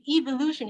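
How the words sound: It is said with a British pronunciation. "the British, they say"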